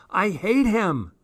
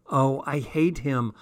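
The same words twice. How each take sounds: First: High, swooping wail of hate; escalated, melodramatic outburst; anguished loathing. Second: Mild hate, not yet raised; restrained loathing. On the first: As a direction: wail it, pitch leaping up. Diary outburst, escalating repeat. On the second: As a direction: say it with contained resentment. Diary outburst, first take. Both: A narrator's reading.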